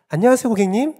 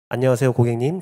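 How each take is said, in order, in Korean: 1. 밝고 높은 음높이로 말합니다. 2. 평범하고 일상적인 음높이로 말합니다.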